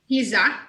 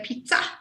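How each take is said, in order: First: The double Z is said as a z sound. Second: The double Z is said as a ts sound. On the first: It follows the English spelling. The speaker calls it wrong. "we don't say pizza, which is what it says phonetically" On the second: It follows the Italian pronunciation. The speaker calls it right. "We say pizza because we're saying the Italian pronunciation"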